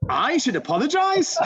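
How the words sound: It is said with a sarcastic, incredulous tune.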